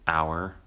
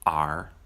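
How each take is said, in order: First: The word is said with its full vowel. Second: The word is said with a weak, reduced vowel.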